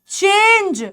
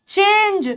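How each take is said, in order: No difference in how they are said.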